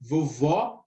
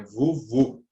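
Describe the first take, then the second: First: "Vovó" with the last vowel open, like "aw"; teacher demonstrating open-O "Vovó"; open final O. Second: "Vovô" with the last vowel closed, like "oh"; teacher demonstrating closed-O "Vovô"; closed final O. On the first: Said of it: "o último O é a". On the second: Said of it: "indicar um O fechado". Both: Shown as a demonstration.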